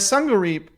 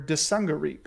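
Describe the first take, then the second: First: The word begins without any D sound. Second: The word begins with a pronounced D sound. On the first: "Maybe the D is silent. Yeah, Sungareep. That's probably it" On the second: "or Desungareep"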